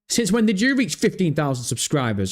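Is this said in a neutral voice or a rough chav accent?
chav accent. It is said in a rough, aggressive chav accent.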